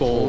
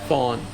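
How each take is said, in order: First: The vowel sounds like 'oh' in phone. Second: The vowel sounds like 'aw' in fawn. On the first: The speaker calls it right. "her pronunciation is phone" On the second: The speaker calls it wrong. "I've called her fawn ... like the deer fawn"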